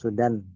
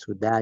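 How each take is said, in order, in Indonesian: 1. Kata ini berakhir dengan vokal pendek dan n. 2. Kata ini berakhir dengan vokal panjang, tidak ada n. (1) "ya Sudan" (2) "kalau mau dipanjangkan"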